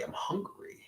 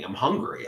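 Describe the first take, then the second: First: Whispered to himself; hungry whisper, no voice at all. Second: Said in the usual way. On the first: Real, not acted. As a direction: breathe it out with no voice.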